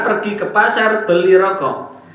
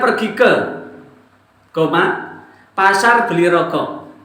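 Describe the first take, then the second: First: The phrase runs on without a break after 'ke'. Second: There is a break between 'ke' and 'pasar'. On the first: The man in the red shirt goes to buy cigarettes. The speaker calls it right. "Contoh tadi" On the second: The market is the one buying cigarettes. The speaker calls it wrong.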